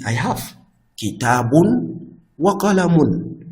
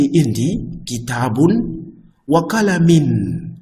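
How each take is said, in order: First: Kitabun wa qalamun said slowly with both -un endings clear; slow, high model sentence; correct vowel endings. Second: Qalamin said slowly, high and loud as the error; wrong ending. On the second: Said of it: "It's not correct". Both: Shown as a demonstration.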